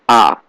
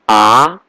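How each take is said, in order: First: The pitch falls sharply downward. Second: The pitch rises toward the end. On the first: "Fourth tone is going down" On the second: "The second tone is going up, like question what?"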